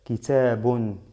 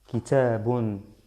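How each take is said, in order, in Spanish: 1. La palabra termina con el sonido final -un. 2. La palabra termina con el sonido final -un.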